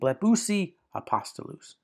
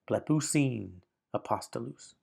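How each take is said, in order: First: The first word ends in a vowel, no n. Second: The first word ends with an added n sound. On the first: "Instead of saying" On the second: "they said"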